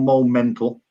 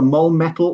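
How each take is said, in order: First: The second word is said with an N sound. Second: The second word is said without an N sound. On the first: "depending on whether you uh, pronounce the the, the um, bracketed N or not" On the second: "depending on whether you uh, pronounce the the, the um, bracketed N or not"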